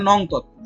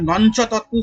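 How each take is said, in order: First: The first word ends in a nasal with no 'ch'. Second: The first word ends with an added 'ch' sound. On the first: The speaker calls it right. "নঞ্চ তৎপুরুষ বলে কিছু হয় না" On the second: The speaker calls it wrong. "তোমরা অনেকে ভুল করে উচ্চারণ করে"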